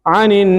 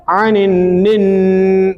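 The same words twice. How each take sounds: First: आनिन said quickly, the नून barely held; a quick आनिन with a brief nasal; short take of आनिन. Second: आनिन निन said very slowly, the doubled नून hummed long through the nose; drawn-out ghunna. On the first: Teacher repeating the word plainly after the long demo. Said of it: "तो थोड़ी देर रुकेगी". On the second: Teacher drawing out the merged noon so the student hears the ghunna. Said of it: "दोनों को मिला रहे हैं". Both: Shown as a demonstration.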